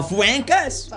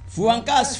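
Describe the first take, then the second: First: Fuancas as fwen-kes, pitched higher; mocked mispronunciation. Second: Fuancas with an open ah, fwahn-kas; correct pronunciation. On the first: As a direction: exaggerate fuancas with eh vowels. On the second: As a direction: model Fuancas slowly with ah. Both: Shown as a demonstration. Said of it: "not, uh, fuancas".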